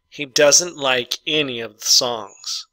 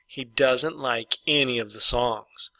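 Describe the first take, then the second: First: Slow dictation reading. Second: Said in the usual way. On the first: Shown as a demonstration. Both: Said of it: "number five".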